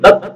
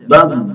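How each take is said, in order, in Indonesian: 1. Konsonan akhir dibaca pendek. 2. Konsonan akhir dibaca panjang. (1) "tidak boleh bab ya, tidak tidak sempurna" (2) "Tapi harus memanjang"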